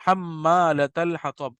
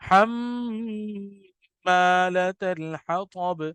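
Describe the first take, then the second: First: "حمالۃ" with the میم said short, no nasal hum; quick flat reading without humming the meem; clipped ghunna. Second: "حمالۃ" with the میم held long and hummed through the nose; very slow melodic recitation with a nasal meem; ghunna recitation. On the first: Teacher shows the wrong way to read, meem unhummed. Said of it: "ایسے نہیں پڑھا". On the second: Teacher shows the right way, long hummed meem. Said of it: "بلکہ اس کو ترنم کیا". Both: Shown as a demonstration.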